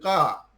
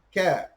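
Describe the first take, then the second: First: The consonant is made deep in the throat. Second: The consonant is a plain front k. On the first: The speaker calls it wrong. "Kaf, bukan qa" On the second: The speaker calls it right.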